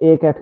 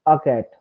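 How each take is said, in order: First: "a cat" with a clear ay for "a"; "a" pronounced ay, not ah. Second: "a cat" with an open, unstressed ah for "a"; "a" pronounced ah, not ay. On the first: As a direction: say "a" in "a cat" as the letter name ay. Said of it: "এতে তো আমরা এ উচ্চারণ করি". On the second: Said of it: "a cat কেন বলছেন না". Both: Shown as a demonstration.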